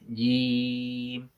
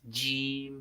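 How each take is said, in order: First: The first consonant is said without a hiss. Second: The first consonant is said with a hiss. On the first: The speaker calls it right. "Huruf jim itu tidak ada desis" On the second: The speaker calls it wrong. "tidak boleh mendesis jim gitu ya"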